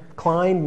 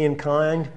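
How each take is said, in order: First: Inclined said fully as in-KLINED, L sounded; clear inclined. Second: Inclined slurred to inkand without the L; inclined swallowed as in-kand; mumbled inclined. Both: Real, not acted.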